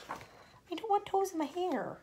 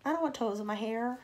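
First: High, slow, squeamish whine; mock horrified squeal; squeaky disgusted voice. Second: Said in the usual way. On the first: Shown as a demonstration. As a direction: say it like a grossed-out child. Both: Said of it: "reader reacts twice".

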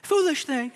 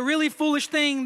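First: Attempted British accent, pitched higher. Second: Said in the usual way. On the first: Shown as a demonstration. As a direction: try on a mock British accent. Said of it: "do it with the British accent". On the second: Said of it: "Brazilian trying to do a British accent".

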